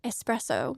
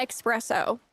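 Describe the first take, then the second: First: "Espresso" as ess-PRESS-oh, with no X; "Espresso" without any K sound; espresso as spelt. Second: "espresso" said as ek-SPRESS-oh; "espresso" mispronounced with an added X; expresso with an X. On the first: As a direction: say "Espresso" with a clean S at the start. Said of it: "the way it's spelt". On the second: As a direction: say "espresso" with a K sound before the S. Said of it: "It's not espresso". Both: Shown as a demonstration.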